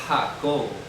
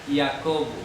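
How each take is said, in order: First: It begins with a breathy h-like sound. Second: It begins with a y-like sound. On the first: This is the later pronunciation. "ya vino a sonar Jacobo" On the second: This is the older pronunciation. "antes era una I... sonaba Iacobo"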